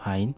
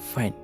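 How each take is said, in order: First: The f is soft and unforced. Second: The f is forceful with a thin voice. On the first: The speaker calls it wrong. "ফাইন আমরা বলি ফাইন, ফাইন হবে না" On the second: The speaker calls it right. "একটু জোর দিয়ে কণ্ঠস্বরকে চিকন করে"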